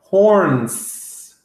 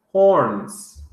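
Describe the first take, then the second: First: "horns" drawn out slowly with a long hissed S at the end; stretched final S. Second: Said in the usual way. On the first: Shown as a demonstration. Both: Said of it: "horns with the S".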